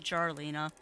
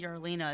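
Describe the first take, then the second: First: The name begins with a J sound. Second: The name begins with a Y sound. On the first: The speaker calls it right. "They actually pronounce the J" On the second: The speaker calls it wrong. "I keep saying Yarlina"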